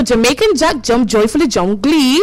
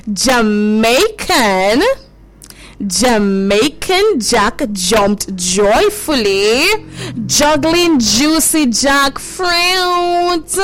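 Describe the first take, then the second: First: Quick, rattled-off tongue twister; fast tongue twister. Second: Half-speed, every word stretched out; very slow tongue twister. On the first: Host trying the tongue twister fast, stumbling. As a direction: race through it and trip at the end. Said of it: "let me try and say this fast". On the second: Host repeats the tongue twister for children, very slowly. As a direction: draw each word out for learners to follow. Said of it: "We're gonna say it slowly at first". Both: Shown as a demonstration.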